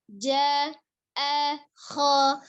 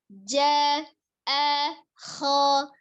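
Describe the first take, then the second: Both takes have the same delivery.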